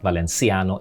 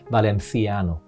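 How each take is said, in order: First: The middle consonant is a plain 's' sound. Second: The middle consonant is a 'th' sound. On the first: The speaker calls it wrong. "it's not Valenciano" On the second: The speaker calls it right. "it's with a T H"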